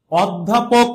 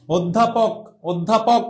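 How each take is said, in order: First: "অধ্যাপক" opening on an open aw; reading "অধ্যাপক" letter-true with open ô; pronounced as spelt. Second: "অধ্যাপক" opening on a rounded o; teacher's model "অধ্যাপক" with closed o; natural pronunciation demo. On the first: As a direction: say "অধ্যাপক" as awddhapok. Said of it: "অধ্যাপক লেখা আছে মানে আমাকে এইভাবেই উচ্চারণ". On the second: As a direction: say "অধ্যাপক" as oddhapok. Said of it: "তুমি উচ্চারণটা কিভাবে করো". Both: Shown as a demonstration.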